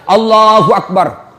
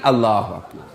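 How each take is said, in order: First: It is said with great, excessive energy. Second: It is said weakly, limp and airy.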